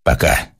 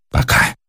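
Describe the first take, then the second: First: Said in the usual way. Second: «Пока» echoed with loathing; hateful. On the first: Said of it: "цокнула трубка и стихла". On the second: A narrator's reading. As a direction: spit back «Пока» full of hatred. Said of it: "с ненавистью повторил Персиков". («Пока» с ненавистью)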